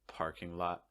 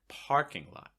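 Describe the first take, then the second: First: Both words are said at a level pitch. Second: The pitch rises on the word parking. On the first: The speaker calls it wrong. "where no words really standing out" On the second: The speaker calls it right. "raising that pitch"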